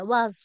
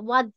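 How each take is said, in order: First: The word is said lightly, without stress. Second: The word is said with heavy stress. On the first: The speaker calls it right. "ওয়াজ হালকা" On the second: The speaker calls it wrong. "ওয়াজ এরকম বলছি না"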